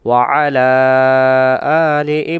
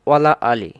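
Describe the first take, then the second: First: The throat consonant is clearly pronounced before 'ala'. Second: The throat consonant is dropped, words run together. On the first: The speaker calls it right. "আইন অক্ষরটাকে আমরা উচ্চারণ সহকারে পড়তে চাইলে" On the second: The speaker calls it wrong. "বেশিরভাগ আমরা এই লাম অক্ষরটাকে ধরি আর আইন অক্ষরটাকে আমরা ছেড়ে দেই"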